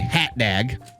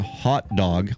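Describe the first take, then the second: First: The vowels sound like the 'a' in 'cat'. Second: The vowels are the usual open 'o' sounds. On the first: The speaker calls it wrong. "I always say hat dag" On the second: The speaker calls it right. "instead of saying hot dog"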